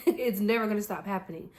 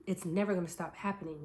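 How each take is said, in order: First: Louder, laughing, punching never; laughing emphasis. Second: Said in the usual way. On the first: Shown as a demonstration. Vlogger to viewers, laughing and louder on never. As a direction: laugh as you repeat it, stressing never.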